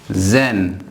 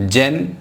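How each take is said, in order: First: "ज़ेन" with a buzzing z, not j; correct z sound. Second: "जेन" with a j sound, marked wrong; wrong pronunciation. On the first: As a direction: model the dotted z in "ज़ेन". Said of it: "यहाँ पे एक dot होगा". (सही "ज़ेन" ज़ की आवाज़ के साथ) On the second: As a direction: say "जेन" with j to show the mistake. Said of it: "जेन नहीं बोलना है". (गलत उच्चारण "जेन" ज की आवाज़ में) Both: Shown as a demonstration.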